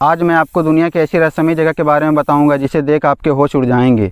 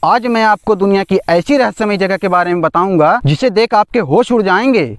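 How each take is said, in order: First: It is said in a plain conversational tone. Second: It is said in a dramatic voice-over tone.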